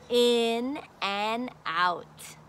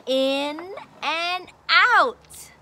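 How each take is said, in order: First: "In and out" slow and a little softer; slow soft repeat. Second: "in and out" drawn out, falling; slow teaching phrase. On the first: Teacher repeating the lesson words, slow and soft. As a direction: repeat it gently and slowly. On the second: Teacher introducing the lesson words, slow and clear. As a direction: stretch out "in and out". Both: Shown as a demonstration. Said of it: "So we're gonna learn about".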